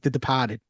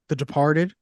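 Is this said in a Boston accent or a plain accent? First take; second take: Boston; plain. First: It is said in a put-on Boston accent. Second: It is said in the speaker's ordinary accent.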